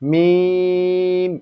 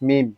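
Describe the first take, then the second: First: The vowel is drawn out for a long time. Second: The vowel is kept short, not drawn out. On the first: The speaker calls it right. "এভাবে 3 আলিফ পরিমাণ টেনে মিমকে আমরা উচ্চারণ করবো" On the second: The speaker calls it wrong. "যারা আগে মিম বলতাম শুধু মিম মিম"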